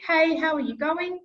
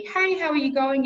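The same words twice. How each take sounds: First: Higher, louder friendly hello; cheerful recorded hello; banked greeting. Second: Higher, louder friendly hello; cheerful message banked hello; banked greeting. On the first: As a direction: greet them brightly. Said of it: "So it's going to be". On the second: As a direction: greet brightly as a recording. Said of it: "in my message banking". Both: Shown as a demonstration.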